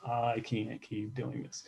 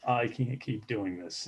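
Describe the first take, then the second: First: Soft, slow, worn-out reading of his own note; quietly reading journal. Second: Said in the usual way. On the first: Retold or imitated. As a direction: read the note back quietly, slowly, like it still hurts. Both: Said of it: "I read notes in here".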